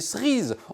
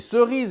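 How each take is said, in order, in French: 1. Le e muet de la première syllabe tombe. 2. Le e muet de la première syllabe se prononce. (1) "et pas des cerises" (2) "On va ramasser des cerises"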